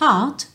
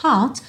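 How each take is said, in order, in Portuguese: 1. O t final é solto audivelmente. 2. O t final é solto audivelmente.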